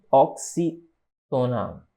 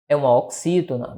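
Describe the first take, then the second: First: "Oxítona" very slow, split into pieces; "Oxítona" in slow, low dictation; syllable by syllable. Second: Said in the usual way. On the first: Shown as a demonstration. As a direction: stretch out "Oxítona" with a gap, low. Teacher breaks up the term.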